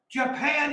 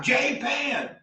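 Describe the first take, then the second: First: Japan said as juh-PAN, short first vowel; correct Japan. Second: Japan said slowly as JAY-pan, long first vowel; the mocked JAY-pan; wrong Japan. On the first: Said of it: "not Japan". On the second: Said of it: "Japan is Japan". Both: Shown as a demonstration.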